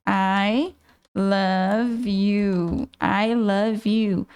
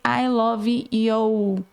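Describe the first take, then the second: First: "I love you" said slowly as "ai lâv iu", lower, drawn out; slow careful demo. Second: "I love you" read slowly as spelled, stretched "i lovi". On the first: Teacher modeling how to hear "I love you" before noting it down. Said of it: "do jeitinho que você fala". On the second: Teacher showing a student misreading "I love you" as spelled. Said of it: "Olha só a interferência". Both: Shown as a demonstration.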